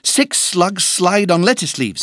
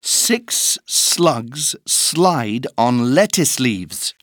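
First: It is said at a faster pace. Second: It is said at a slow pace.

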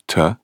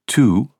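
First: The word is said short with a reduced vowel. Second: The word is said with its full vowel.

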